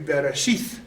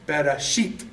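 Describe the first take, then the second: First: The word ends with a soft th sound. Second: The word ends with a hard t sound. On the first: The letter has no dot marking it hard. "it's T H. So it would be" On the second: The letter carries a dot marking it hard. "it's pronounced as a hard T"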